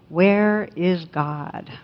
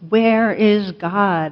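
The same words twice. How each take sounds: First: It is said sternly but at moderate volume. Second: It is said loudly with a raised voice.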